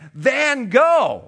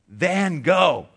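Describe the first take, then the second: First: The name is said much louder. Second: The name is said at normal volume.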